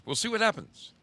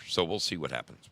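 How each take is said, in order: First: Playful echo. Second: Said in the usual way. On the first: Real, not acted. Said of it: "repeated phrase, higher second take". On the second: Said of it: "repeated phrase, first take".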